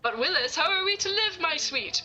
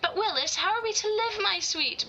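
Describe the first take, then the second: First: It is said in a deep, booming voice. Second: It is said in an ordinary speaking voice.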